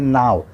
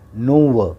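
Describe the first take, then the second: First: It is said as one syllable, now. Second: It is sounded out as two syllables, no-wo. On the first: The speaker calls it right. "इसको पढ़ेंगे नाव" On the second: The speaker calls it wrong. "लेकिन गलत है"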